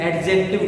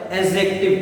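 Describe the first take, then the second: First: एडजेक्टिव said wrongly with a sounded d; wrong pronunciation. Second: एडजेक्टिव said as ajective with a silent d; correct pronunciation. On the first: Teacher showing the wrong way, d sounded in एडजेक्टिव. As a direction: read एडजेक्टिव as ad-jective, d clearly heard. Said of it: "एडजेक्टिव नहीं बोला जाता". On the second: Teacher giving the right form, silent d in एडजेक्टिव. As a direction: say एडजेक्टिव gliding straight from a to j. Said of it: "क्या बोला जाता है?". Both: Shown as a demonstration.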